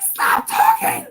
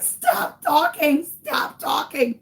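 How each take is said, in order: First: Squealed very high and loud, drawn out; hammed-up strangled panic; panicked shriek. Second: High, slow, tearful pleading; desperate wail. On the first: Mother silencing her son before police, panicked shriek. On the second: Retold or imitated. Mother begging son to hush, desperate wail. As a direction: wail it out in acted despair.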